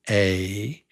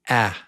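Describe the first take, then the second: First: It is said as the letter's name. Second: It is said like the vowel in apple. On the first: "The letter is A" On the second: "the sound we want now is A, like in apple"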